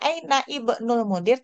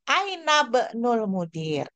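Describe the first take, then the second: First: The vowel of 'ibnul' is pronounced separately. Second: The vowel of 'ibnul' is dropped and linked. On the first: The speaker calls it wrong. "kita tidak membacanya" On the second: The speaker calls it right.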